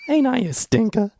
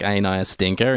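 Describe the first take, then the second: First: Impish Dracula line. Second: Quoted flat in his own voice; just say it evenly, no impression; plain Gary Oldman line. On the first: Retold or imitated. Podcaster hamming up Dracula's line for his cohost, high and playful. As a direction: toss it off like a cheeky old rascal. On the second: Podcaster quoting the line to his cohost, plainly. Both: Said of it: "he's like".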